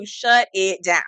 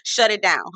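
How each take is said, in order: First: Slow, laughing through the words. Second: Said in the usual way. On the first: Real, not acted. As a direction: chuckle as you repeat shut it down. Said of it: "repeated with laugh". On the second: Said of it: "repeated catchphrase".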